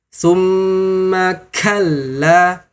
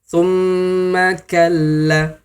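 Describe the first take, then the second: First: The k releases a heavy burst of breath. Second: The k releases only a light puff of breath. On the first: The speaker calls it wrong. "Terlalu berlebihan" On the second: The speaker calls it right. "Contoh pengucapan yang benar"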